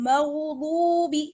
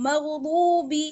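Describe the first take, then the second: The two takes are said the same way.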